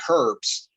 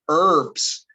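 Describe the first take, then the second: First: The word starts with an audible H sound. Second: The word starts with a vowel, no H. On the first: This is how it is said elsewhere in the English-speaking world. "They actually pronounce the H" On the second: This is how it is said in US English. "we don't use that H sound"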